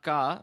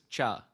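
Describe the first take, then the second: First: The syllable starts with a hard k sound. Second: The syllable starts with a ch sound. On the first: The speaker calls it wrong. "But this is not ka" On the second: The speaker calls it right. "the pronunciation is cha"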